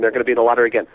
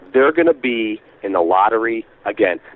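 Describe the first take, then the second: First: It is said at a quick, ordinary pitch. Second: It is said slowly with a lowered voice. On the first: The speaker calls it wrong. "So let's say I was like" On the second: The speaker calls it right. "by slowing down and dropping your voice"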